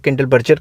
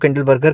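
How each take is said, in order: First: The second part is said with a j sound. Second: The second part is said with a hard g. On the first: "कुछ लोग Kindle बर्जर कह देते हैं" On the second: "कुछ लोग इसको Kindle बर्गर कह देते हैं"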